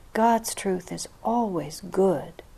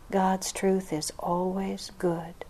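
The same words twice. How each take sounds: No difference in how they are said.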